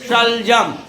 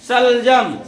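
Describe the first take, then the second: First: The first sound has the tongue touching the palate. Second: The first sound has the tongue curled back. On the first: "तालु से अर्थात हम अपना जुबान जो जीव है तालु में स्पर्श करेंगे" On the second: "इसको मुर्दा में"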